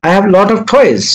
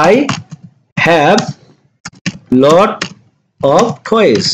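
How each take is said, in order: First: Said in the usual way. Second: Each word slowly, with long pauses between; teacher dictates one word at a time for students. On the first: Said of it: "teacher repeats sentence at full speed". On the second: Shown as a demonstration. Teacher to students, dictating slowly word by word. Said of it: "teacher spells out English sentence".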